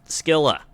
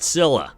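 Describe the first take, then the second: First: The name begins with a K sound. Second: The name begins with an S sound. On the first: This is how the other game says it. "Hades two pronounces it Skilla" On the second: This is how the other person says it. "You pronounce it Scylla"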